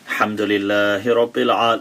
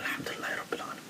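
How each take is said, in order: First: It is said aloud, clearly audible. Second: It is said quietly, barely audible.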